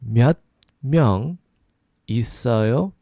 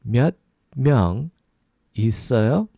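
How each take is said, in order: Both takes have the same delivery.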